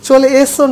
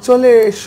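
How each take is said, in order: First: The s is a sharp hissing s. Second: The s is a hushing sh. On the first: The speaker calls it wrong. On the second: The speaker calls it right.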